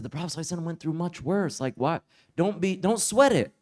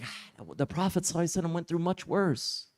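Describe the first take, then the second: First: Relaxed reassurance. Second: Calm, unbothered. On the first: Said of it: "not bothered in the least". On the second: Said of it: "He was totally cool". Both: Retold or imitated.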